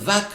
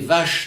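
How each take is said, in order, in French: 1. Le mot se termine par un son k. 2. Le mot se termine par un son sh. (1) "vac dans l'autre" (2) "vache dans un cas"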